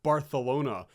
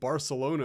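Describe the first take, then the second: First: It is said with a native Spanish accent. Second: It is said with an English accent. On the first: "pronounce foreign cities with the native accent" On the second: "I'm so wrong for saying Barcelona"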